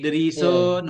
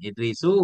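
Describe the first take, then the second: First: The word ends with an added n sound. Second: The word ends on a vowel, without n. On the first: The speaker calls it wrong. "yang dibaca dengan tanwin dalam Natam di atas Idrisun" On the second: The speaker calls it right. "enggak pakai tanwin"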